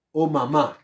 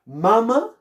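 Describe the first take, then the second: First: "mamá" con fuerza en el MÁ final; acento en la última sílaba. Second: "Mama" con fuerza en MA inicial, en pregunta aguda; acento en la primera sílaba. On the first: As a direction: pronuncia "mamá" como palabra aguda, ma-MÁ. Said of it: "Mamá, ¿verdad?". ("mamá" acentuada al final, más contenida) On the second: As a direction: pronuncia "Mama" como palabra grave, MA-ma. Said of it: "¿Cómo dicen ustedes?". ("Mama" con acento en la primera sílaba, preguntando) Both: Shown as a demonstration.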